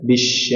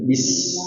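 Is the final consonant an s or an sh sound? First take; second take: sh; s. First: The word ends in an sh sound. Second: The word ends in a plain s sound. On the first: The speaker calls it wrong. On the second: The speaker calls it right.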